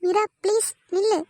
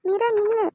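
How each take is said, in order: First: Higher, pleading call after her; desperate plea. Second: Calling out. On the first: Arun begs Meera to stop as she walks away, pleading. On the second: Arun calls out after Meera walking away, higher call. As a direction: shout her name as she leaves. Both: Acted.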